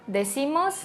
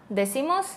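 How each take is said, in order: The two takes are said the same way.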